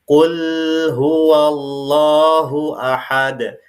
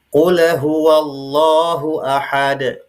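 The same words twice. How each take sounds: First: The l of qul is held too long. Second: The l of qul is bounced with an echo. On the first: "tidak boleh terlalu lama dialirkan atau ditahan" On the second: "tidak boleh dibaca qalqalah atau pantul"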